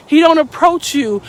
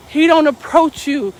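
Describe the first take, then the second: No difference in how they are said.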